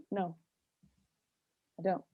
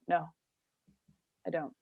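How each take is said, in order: First: Same curt refusal, a bit quieter; deadpan no, leave it hanging; blunt no. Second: Curt, flat refusal with a long pause; blunt flat no. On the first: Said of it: "And I just go". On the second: She refuses the friends with a blunt flat no. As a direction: shut it down, no explanation. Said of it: "just say it like that". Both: Retold or imitated.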